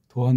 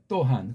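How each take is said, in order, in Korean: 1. 첫 자음은 평음이고 부드러운 소리입니다. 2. 첫 자음은 경음이고 센 소리입니다. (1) "그냥 이걸 도한 그러면은" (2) "이게 또라고 하는 된소리 경음이 된다고요"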